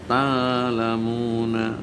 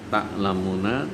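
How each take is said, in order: First: The glottal stop is replaced by a long vowel. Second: The glottal stop is clearly pronounced.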